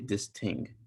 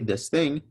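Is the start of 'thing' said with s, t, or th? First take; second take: t; th. First: The word starts with a t sound. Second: The word starts with a th sound. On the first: "someone with a Jamaican accent, they would say this ting" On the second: "you tell them to say this thing"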